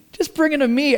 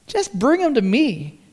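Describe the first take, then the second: First: "Just bring 'em to me" lifted higher, with "bring" stressed; emphatic repeat. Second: Said in the usual way. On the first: Shown as a demonstration. Preacher repeating Jesus' invitation to the congregation, with "bring" pitched up. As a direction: press the invitation home, raising "bring". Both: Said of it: "all Jesus is saying is".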